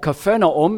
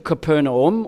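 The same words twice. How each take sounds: First: The name has a Hebrew-style pronunciation. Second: The name has an ordinary English pronunciation.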